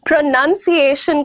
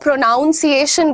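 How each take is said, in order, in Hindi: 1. दूसरा अक्षर 'nun' जैसा सुनाई देता है। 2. दूसरा अक्षर 'noun' जैसा सुनाई देता है। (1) "जबकि इस वर्ड में P R O N यू N है" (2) "बहुत सारे लोग प्रोनाउंसिएशन को प्रोनाउंसिएशन बोलते हैं"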